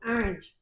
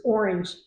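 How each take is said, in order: First: Orange said New York style, ORANGE with a broad open AH-rinj; a New York take on the word orange, AH-rinj; New York accent. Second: Said in the usual way. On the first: Shown as a demonstration. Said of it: "That's my New York accent". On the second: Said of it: "versus orange".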